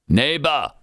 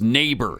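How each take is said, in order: First: It is said in a heavy Austrian-sounding accent. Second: It is said in a plain American accent. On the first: This imitates how the actor says it. The speaker calls it wrong. "he can't say neighbor" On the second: This is the standard way to say it. The speaker calls it right. "No, Arnold, it's neighbor"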